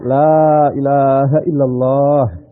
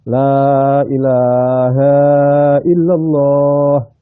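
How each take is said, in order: First: The last vowel of ilaha is short. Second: The last vowel of ilaha is long. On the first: The speaker calls it right. "jadi yang benar" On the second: The speaker calls it wrong. "La ilaha hanya dibaca panjang. Itu salah itu"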